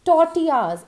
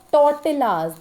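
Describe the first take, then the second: First: Tortillas as tor-TEE-yas; correct pronunciation. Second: Tortillas as "tor-TILL-as", l sounded; wrong pronunciation. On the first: Teacher introducing the next word, correct pronunciation. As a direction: say tortillas with silent l's. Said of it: "actually we call it as tortillas". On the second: Teacher showing what it never is, mispronounced. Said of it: "It is never". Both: Shown as a demonstration.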